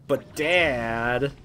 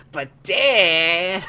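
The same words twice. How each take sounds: First: Mild Zagreus impression. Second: High, loud whiny "But Dad!"; Bobby Hill impression. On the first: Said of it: "his son Zagreus is all like". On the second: Gamer doing Zagreus as Bobby Hill, whining loudly. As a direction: whine it like a put-out kid. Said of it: "he talks like Bobby Hill".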